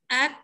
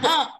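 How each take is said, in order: First: The consonant is pronounced thin, lips spread. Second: The consonant is pronounced thick and heavy. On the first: The speaker calls it right. "Dia nipis, dia istifal, senyum" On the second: The speaker calls it wrong. "Jangan ak. Kalau ak tak betul, dia jadi tebal"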